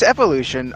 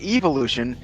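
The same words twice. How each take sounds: First: The first syllable has a short 'eh' vowel. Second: The first syllable has a long 'ee' vowel. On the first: The speaker calls it right. "it's evolution" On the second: The speaker calls it wrong. "it sounds like you're talking about an evil evolution to me"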